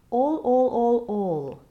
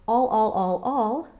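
First: The vowel is an open, warm, rounded O. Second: The vowel is bright and less rounded. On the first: The speaker calls it right. "use this open O, getting a warmer, rounder sound" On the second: The speaker calls it wrong. "the brighter sound of all"

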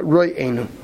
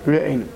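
First: The r is followed by an o vowel. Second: The r is followed by a short schwa. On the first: The speaker calls it wrong. "v'loy bechol. Not re'enu" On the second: The speaker calls it right. "B'shva re'enu tachz reish"

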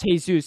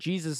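First: The name has its original, non-American pronunciation. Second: The name has an American English pronunciation. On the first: This is how the name was originally said. The speaker calls it right. "Originally it's pronounced Jesus" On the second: This is a distorted version of the original name. The speaker calls it wrong. "Jesus is like American butchering of it"

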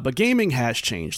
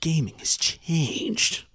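First: It is said in his normal voice. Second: It is said in a gravelly Snake impression.

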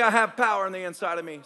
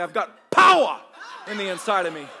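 First: It is said in a plain, unemphatic voice. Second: It is said forcefully, imitating an African speaker.

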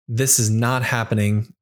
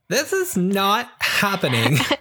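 First: It is said in an ordinary speaking voice. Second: It is said in a put-on Valley Girl voice.

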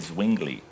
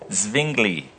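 First: The name is said with anglicized English sounds. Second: The name is said with its native German sounds. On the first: "we can just say Zwingli because we're kind of anglicized" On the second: "if you want to say it properly"

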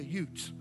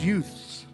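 First: The word ends in a plain 't' sound. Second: The word ends in a 'th' sound. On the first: The speaker calls it wrong. "I want to be like that guy in that movie and say utes" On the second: The speaker calls it right. "But it's not utes, it's youths"

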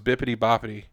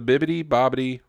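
First: The middle consonants are p and t sounds. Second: The middle consonants are b and d sounds. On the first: The speaker calls it wrong. "I thought it was Bippity Boppity. I've been saying it wrong" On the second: The speaker calls it right. "But it's the Bibbidi Bobbidi Boutique"

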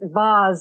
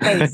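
First: It is said with a British accent. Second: It is said with an American accent.

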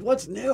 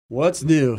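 First: It is said in a joyful, eager tone. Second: It is said in a weary, fed-up tone. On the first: Something good could happen now. "there's a joyous side" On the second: Nothing ever changes. "So-and-so has the same friggin' problem they always have"

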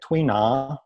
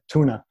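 First: It is said with a separate 'tui' before 'na'. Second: It is said like the English word tuna. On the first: The speaker calls it right. "the way they pronounce it is like Tuina" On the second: The speaker calls it wrong. "some people might miscall it like tuna"

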